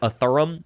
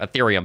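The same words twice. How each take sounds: First: Said in a Southern drawl accent. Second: Said in a neutral standard accent. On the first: The speaker calls it wrong. "the most common one is is Ethereum. I think we hear a lot of that in the South" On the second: The speaker calls it right. "the correct name"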